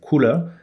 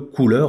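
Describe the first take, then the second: First: It is said with an English pronunciation. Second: It is said with a French pronunciation. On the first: "prononcé à l'anglaise" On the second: "le couleur en français"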